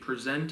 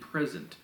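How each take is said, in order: First: The stress is on the second syllable. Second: The stress is on the first syllable. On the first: Giving a show or demonstrating something. "if I present to you, I'm giving a presentation" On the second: A gift for someone. "If I have a present for you"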